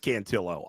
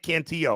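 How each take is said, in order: First: The name is said like 'cantaloupe'. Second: The name is not said like 'cantaloupe'. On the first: The speaker calls it right. "I know it's Cantillo" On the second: The speaker calls it wrong. "I just say it Cantillo"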